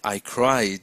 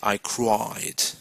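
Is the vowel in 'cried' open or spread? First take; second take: spread; open. First: The vowel is spread wide, with a flat mouth. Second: The vowel is open, with a dropped jaw. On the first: The speaker calls it wrong. "You're not going to say I cried" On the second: The speaker calls it right. "You're going to say I cried"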